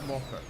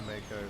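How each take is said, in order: First: The first syllable sounds like "mo". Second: The first syllable sounds like "ma". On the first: "In Japanese, it'd be Moko" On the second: "put one or two if it's May or Ma"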